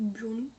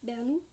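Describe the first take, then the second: First: "Burnou", first syllable as "bur" instead of "ber"; alternative pronunciation. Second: "Bernou", first syllable as "ber"; tentative pronunciation. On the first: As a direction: say "Burnou" with a rounded first vowel. (autre prononciation, « Burnou » avec « bur ») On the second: (essai de prononciation, « Bernou » avec « ber ») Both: Shown as a demonstration. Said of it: "comment ça se présente, prononce".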